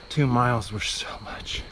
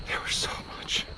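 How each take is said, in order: First: Said in the usual way. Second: Breathy exhausted whisper. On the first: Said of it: "repeated as whisper". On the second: Real, not acted. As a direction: whisper it, spent.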